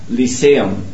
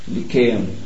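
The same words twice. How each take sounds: First: The C is sounded like an S. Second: The C is sounded like a K.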